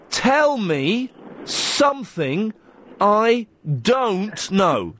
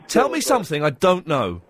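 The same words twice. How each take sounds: First: The sentence is said slowly and deliberately. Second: The sentence is said at a normal speed.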